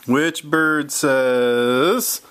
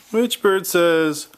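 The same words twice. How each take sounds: First: Drawn-out slow which bird says; teasing slow quiz question. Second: Said in the usual way. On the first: Shown as a demonstration. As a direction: stretch the question out to build suspense. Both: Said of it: "repeats the question".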